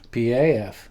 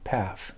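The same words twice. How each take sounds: First: It is spelled out as three separate letters. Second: It is said as a single word, paf.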